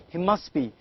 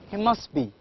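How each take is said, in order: The two takes are said the same way.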